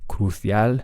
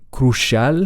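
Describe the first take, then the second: First: It is said with a Spanish-style middle consonant. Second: It is said with an English sh sound. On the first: "they would say" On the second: "they wouldn't say crucial"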